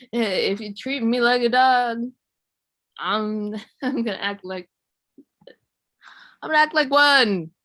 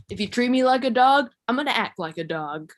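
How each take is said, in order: First: Mock flustered, faltering comeback; choking on spit. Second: Mock-tough comeback, starting high and loud; fantasy comeback. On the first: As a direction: sputter and stall, then blurt it out loudly. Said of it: "choke on my spit or something". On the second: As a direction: deliver it as a confident imagined retort. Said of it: "But I think it would go more like".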